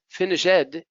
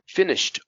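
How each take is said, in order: First: The ending is an extra syllable like 'it'. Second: The ending is a short T sound. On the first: The speaker calls it wrong. "it sounds like finish it" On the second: The speaker calls it right. "Now these ones have a T sound"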